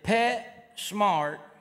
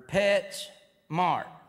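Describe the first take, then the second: First: The s starts the second word, smart. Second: The s ends the first word, pets. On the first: The store name means pets are smart. "Is it Pet Smart" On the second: The store name means a mart for pets. "or Pets Mart?"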